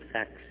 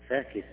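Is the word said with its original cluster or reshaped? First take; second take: cluster; reshaped. First: Long vowel then two unvowelled consonants together. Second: Reshaped to avoid two unvowelled consonants together. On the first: The speaker calls it wrong. "ما يقول فاكس" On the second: The speaker calls it right. "كذا الطبيعة"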